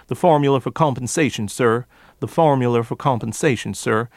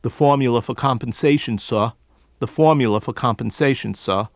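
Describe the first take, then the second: First: Hard R's in formula, for and sir; Appalachian "formuler fer compensation, sir"; forced R's. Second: New York formula, for and sir without R's; R-less New York delivery; New York accent, R's dropped. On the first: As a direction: add an R at the end of formula, R-heavy sir. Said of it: "additional R's as at the end of that word". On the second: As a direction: drop every R, New York style: "suh". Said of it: "Instead of what he might normally do". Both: Shown as a demonstration.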